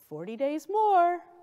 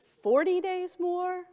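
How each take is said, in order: First: The stress is on "more". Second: The stress is on "forty".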